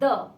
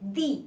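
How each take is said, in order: First: The vowel is short and weak, like 'thuh'. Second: The vowel is long and clear, like 'thee'. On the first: It comes before a consonant sound. "जब हम द को एक consonant sound के पहले बोलते हैं तब हम उसको कहते हैं द" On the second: It comes before a vowel sound. "जब हम इस वर्ड को वॉवल साउंड के पहले लिखते हैं तब हम इसको प्रोनाउंस करते हैं दी"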